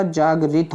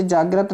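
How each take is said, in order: First: "जागृत" as jaagrit, with an i; correct "जागृत". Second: "जागृत" as jaagrat, with an a; wrong "जागृत". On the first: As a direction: end जागृत on -grit. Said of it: "होता है". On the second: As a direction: end जागृत on -grat. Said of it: "नहीं होता". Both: Shown as a demonstration.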